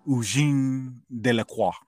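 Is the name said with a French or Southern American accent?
French. The name is said with a French pronunciation. "I want to say it correctly, and it's because it's a French name"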